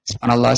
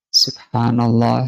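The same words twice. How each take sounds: First: It is said hurriedly and unclearly. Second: It is said slowly and with devotion.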